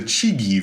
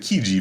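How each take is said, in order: First: The name begins with a 'ch' sound. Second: The name begins with a 'k' sound. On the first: The speaker calls it wrong. "You'd think it's the Chigi vase" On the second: The speaker calls it right. "but it's actually the Kiji vase"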